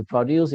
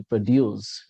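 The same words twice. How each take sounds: First: "produce" stressed on the first syllable, PRO-duce; noun stress. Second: "produce" stressed on the second syllable, pro-DUCE; light first syllable, strong second in "produce"; verb stress. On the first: Teacher shows the noun form, PRO-duce for "produce". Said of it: "If it is a noun". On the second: Teacher shows the verb form, pro-DUCE for "produce". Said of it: "if it is a verb". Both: Shown as a demonstration.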